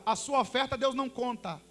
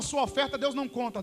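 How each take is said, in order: First: The phrase is spoken more slowly and deliberately. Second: The phrase is spoken at a normal, quicker pace.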